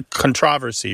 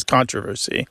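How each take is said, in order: First: "controversy" in one of its two rival stresses; stress shift. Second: "controversy" in the other rival stress; stress shift. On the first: Host contrasting rival forms, "controversy" stressed on TROV. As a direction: say "controversy" as con-TROV-ersy, second syllable stressed. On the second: Host contrasting rival forms, "controversy" stressed up front. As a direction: say "controversy" as CON-tro-versy, first syllable stressed. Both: Shown as a demonstration. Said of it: "the famous one".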